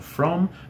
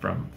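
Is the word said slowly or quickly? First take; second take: slowly; quickly. First: The word is said slowly with a full vowel. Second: The word is said quickly with a reduced vowel. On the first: The speaker calls it wrong. "aí você fala from" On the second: The speaker calls it right. "mas na verdade é from, from, from, e bem rápido"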